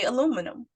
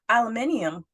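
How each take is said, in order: First: It is said the American way, with four syllables. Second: It is said the British way, with five syllables. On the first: This is how people in the US say it. "we say aluminum" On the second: This is how people in the UK say it. "people in the U K say aluminium"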